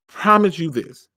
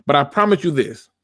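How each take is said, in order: First: "promise" leaned on, each word spaced out slowly; a solemn vow, spelled out word by word; slow, weighty promise. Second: Said in the usual way. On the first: Shown as a demonstration. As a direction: land "promise" hard and take it slow. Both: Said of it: "Mark my words when I say this".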